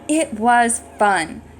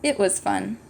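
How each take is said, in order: First: It is exclaimed in an excited way. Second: It is said in a flat, plain way.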